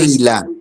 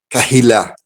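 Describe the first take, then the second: First: It is said without a throaty middle h. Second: It is said with a throaty middle h.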